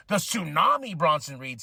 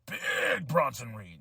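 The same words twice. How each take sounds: First: Tsunami punched as the preferred ring name; stress on Tsunami. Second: "Big" stretched out long, then the name dropping away; drawn-out BIG. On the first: Wrestling fan pitching a better ring name, Tsunami stressed. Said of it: "sounds better than Big Bronson Reed". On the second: Wrestling fan mocking a ring name, "Big" drawn out. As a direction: drag out "Big" in mock announcement. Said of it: "I still don't like the moniker of Big". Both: Shown as a demonstration.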